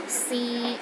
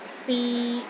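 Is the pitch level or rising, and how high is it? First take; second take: mid level; mid level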